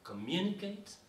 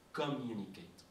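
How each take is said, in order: First: "communicate" lifted high after a light CO; "communicate" with the accent thrown past CO, higher; stress off first syllable. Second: Measured "communicate", showing its CO sound. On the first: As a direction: punch the later syllables of "communicate", rising. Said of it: "l'accentuation ne se fait jamais sur la première syllabe". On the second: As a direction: sound out the opening of "communicate" without a lift. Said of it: "c'est la sonorité". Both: Shown as a demonstration.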